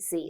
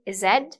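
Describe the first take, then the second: First: The letter is said the American way. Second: The letter is said the British way. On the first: "the U S prawn" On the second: "that's the U K prawn"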